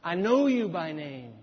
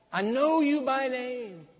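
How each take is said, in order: First: Said in the usual way. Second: Higher, slow and tender; tender God voice. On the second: Shown as a demonstration. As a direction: let God speak it gently to a friend. God's words repeated, softer emphasis.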